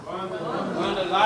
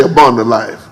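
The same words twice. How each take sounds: First: Whispered, slow abundant life. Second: Said in the usual way. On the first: Shown as a demonstration. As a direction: breathe it out softly.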